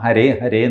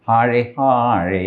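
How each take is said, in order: First: It is said with a local Indian accent. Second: It is said with a Western foreign accent. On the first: This is how local people say it. "നമ്മൾ ഹരേ ഹരേ എന്ന് പറയുന്നത്" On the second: This is how foreign devotees say it. "അവർ ഹാഴേ ഹാഴേ ഇങ്ങനെയൊക്കെയാണ് പറയുന്നത്"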